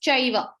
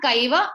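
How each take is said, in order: First: "chaiva" starting with ch as in church; correct CH sound. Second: "kaiva" starting with a hard K; wrong K sound. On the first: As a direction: give the corrected "chaiva", C read as CH. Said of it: "it's chaiva". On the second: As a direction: show the mistake "kaiva", C read as K. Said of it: "It's not kaiva". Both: Shown as a demonstration.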